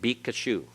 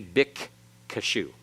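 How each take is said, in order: First: The k sound is single, not doubled. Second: The k sound is doubled and held longer. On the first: "It actually quits doubling when you do that with the Raphe. It makes it" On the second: "And it's actually originally"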